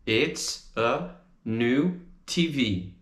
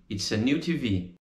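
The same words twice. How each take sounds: First: Slow, careful It's a new T V; slow model. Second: Said in the usual way. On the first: Shown as a demonstration. Teacher drilling the phrase slowly, then normal. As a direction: pace it out for learners. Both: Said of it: "a gente diz é uma nova T V".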